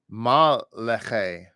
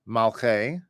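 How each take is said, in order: First: A vowel is sounded after the L. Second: The L closes the first syllable without a vowel. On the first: The speaker calls it wrong. "or possibly you could read it as Ma-leche" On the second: The speaker calls it right. "you could read it as Malche"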